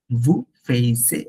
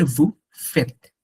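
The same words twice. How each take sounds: First: Vous faisiez said slowly as the common mistake; wrong form. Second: Vous faites said as "vu fet", short and clean; correct form. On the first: Teacher showing students the wrong form, slow and clear. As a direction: spell out vous faisiez as the error, unhurried. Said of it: "ওরা বলে না". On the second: Teacher giving students the correct French form, crisp. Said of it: "ওরা বলে vous faites". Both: Shown as a demonstration.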